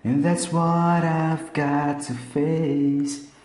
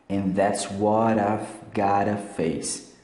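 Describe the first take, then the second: First: Got and to are said as separate words. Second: The t becomes a quick r-like tap, words joined. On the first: "tem uma versão ao vivo que ele pronuncia assim mesmo" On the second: "Tira o T aqui e coloca um R"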